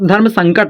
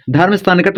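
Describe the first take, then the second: First: धर्म संकट with joined nasal sang-kat; natural धर्म संकट, said as sang-kat; correct धर्म संकट. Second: धर्म संकट with a separate san-kat; misread धर्म संकट. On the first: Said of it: "धर्म संकट होता है". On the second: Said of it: "धर्म संकट नहीं होता". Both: Shown as a demonstration.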